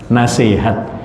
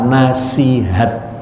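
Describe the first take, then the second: First: The second vowel is sounded as e. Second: The second vowel is sounded as i. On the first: This is the everyday way people say it. "Sering kita mengucapkan nasihat pakai e" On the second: This is the formal standard form. "kalau bahasa formalnya adalah nasihat"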